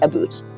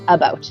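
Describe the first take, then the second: First: The vowel sounds close to 'boot'. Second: The vowel sounds like the one in 'out'. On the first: This is how people from Ontario say it. "Ontarians say aboot" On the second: This is how the rest of Canada says it. "The rest of us say about"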